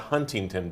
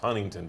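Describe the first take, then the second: First: The T in the middle is clearly pronounced. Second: The T in the middle is dropped. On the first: The speaker calls it wrong. "It's not Huntington Beach" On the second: The speaker calls it right. "You have to say it without the T"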